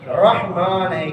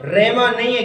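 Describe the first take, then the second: First: رحمان slowly as "RAH-maan"; correct pronunciation. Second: رحمان as "RAY-maan"; wrong pronunciation. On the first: Teacher giving the right form, correct pronunciation. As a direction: sound h and open "a" in رحمان. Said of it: "کیا ہے". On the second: Teacher rejecting the common form, wrong pronunciation. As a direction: drop the h from رحمان. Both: Shown as a demonstration.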